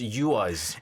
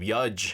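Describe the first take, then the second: First: The name ends with a 'z' sound. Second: The name ends with a 'j' sound. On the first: The speaker calls it right. "But it's Yuaz" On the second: The speaker calls it wrong. "pronounced it wrong"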